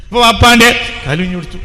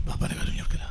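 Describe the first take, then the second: First: Loud, pressing declaration; loud preacher's declaration; forceful preaching. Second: Hushed, breathy whisper with stress on കൊടുക്കല; secret-sharing whisper. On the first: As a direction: push it out to the crowd. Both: Acted. Same phrase loud then whispered.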